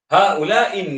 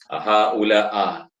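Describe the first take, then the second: First: The word ends in an i vowel. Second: The word ends in an a vowel. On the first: The speaker calls it right. "tetap selama-lamanya dengan baris bawah" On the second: The speaker calls it wrong. "tukar baris atas ... tak boleh"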